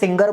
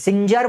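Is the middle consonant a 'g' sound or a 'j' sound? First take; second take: g; j. First: The middle consonant is a hard 'g' sound. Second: The middle consonant is a 'j' sound. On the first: "सिंजर बोलो या सिंगर बोलो, आपकी इच्छा" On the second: "सिंजर बोलो या सिंगर बोलो, आपकी इच्छा"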